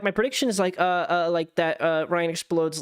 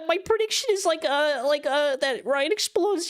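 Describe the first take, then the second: First: It is said in the speaker's normal voice. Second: It is said in a put-on cartoon voice.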